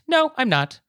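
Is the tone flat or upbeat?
upbeat. The reply sounds cheerful and bright. "So it can be an upbeat"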